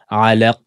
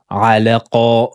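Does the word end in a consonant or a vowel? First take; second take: consonant; vowel. First: The word ends on a bouncing stopped consonant. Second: The word ends with an added vowel. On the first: The speaker calls it right. "mais c'est alaq" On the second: The speaker calls it wrong. "Attention à ne pas dire alaqa"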